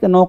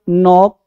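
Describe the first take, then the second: First: The word starts with a k sound before n. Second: The word starts directly with an n sound. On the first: The speaker calls it wrong. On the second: The speaker calls it right.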